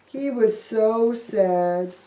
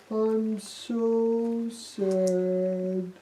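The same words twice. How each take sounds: First: Said in the usual way. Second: Mopey Thomas. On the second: Acted. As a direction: drag out the sadness in a sulk. Thomas moping.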